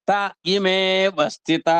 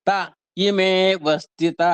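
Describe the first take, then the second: Both takes have the same delivery.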